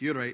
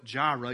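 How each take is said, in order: First: The word begins with a Y sound. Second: The word begins with a J sound. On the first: This is the original Hebrew pronunciation. The speaker calls it right. "but it's Yireh" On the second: This is the familiar everyday pronunciation. The speaker calls it wrong. "You've probably heard that's the way we say it"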